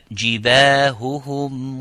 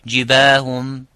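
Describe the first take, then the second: First: Both h sounds are clearly pronounced. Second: The second h sound is merged away. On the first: The speaker calls it right. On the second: The speaker calls it wrong. "Some say جِبَاهُمْ ... makes the idgham as if it is sukun"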